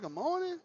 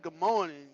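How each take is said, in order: First: Higher, polite good morning; big guy greeting. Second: Said in the usual way. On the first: Retold or imitated. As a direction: greet sweetly, pitched higher. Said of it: "I'm a big guy saying". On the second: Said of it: "I said".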